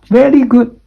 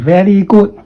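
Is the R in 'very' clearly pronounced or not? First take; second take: clear R; unclear R. First: The R in very is clearly pronounced. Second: The R in very is not clearly pronounced. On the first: The speaker calls it right. "Very is the R sound" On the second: The speaker calls it wrong. "Don't say"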